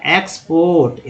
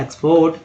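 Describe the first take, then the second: First: एक्सपोर्ट slowly with a long "पो"; drawn-out demonstration. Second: Said in the usual way. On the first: Shown as a demonstration. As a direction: stretch the o in एक्सपोर्ट. Slow demo, then normal repeat.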